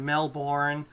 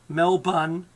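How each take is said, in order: First: Melbourne is said a non-Australian way. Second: Melbourne is said the Australian way. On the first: The speaker stands out as an outsider. The speaker calls it wrong. "If if you're anyone else, you're going to go" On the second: The speaker sounds like a local. The speaker calls it right. "That's how we pronounce them here"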